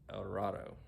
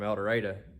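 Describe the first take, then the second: First: It is pronounced the usual, non-local way. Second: It is pronounced the way Arkansas locals say it. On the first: It names the better-known El Dorado. "which is a lot like El Dorado" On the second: It names the nearby Arkansas town. "down the road from El Dorado"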